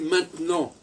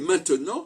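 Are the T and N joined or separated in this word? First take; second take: joined; separated. First: The T and N are run together. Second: The T and N are kept apart. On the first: "je relie le T et le N" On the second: "je sépare le T et le N"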